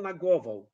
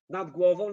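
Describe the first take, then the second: First: "nad głową" said as "nag głową"; loud "nad głową" with g for d; assimilated d. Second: Said in the usual way. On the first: Shown as a demonstration. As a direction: turn the d of "nad" into g. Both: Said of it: "the same happens in Polish".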